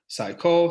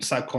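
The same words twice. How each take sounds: First: The pitch rises from low to high. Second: The pitch stays level across the word. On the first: The speaker calls it right. "it's supposed to kind of go more rising" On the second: The speaker calls it wrong. "boom boom boom"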